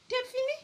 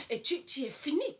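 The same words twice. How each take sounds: First: High exclamation. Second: Said in the usual way. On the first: Real, not acted. Répète avec insistance.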